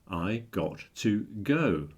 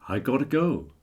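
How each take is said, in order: First: Got and to are said as separate words. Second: Got to is run together quickly as gotta.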